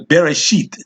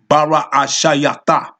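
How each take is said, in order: First: The word is said with e vowels. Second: The word is said with only a vowels. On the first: This is a later, added pronunciation. The speaker calls it wrong. "now they have is" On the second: This is how it was said back then. The speaker calls it right. "if I go right here and say"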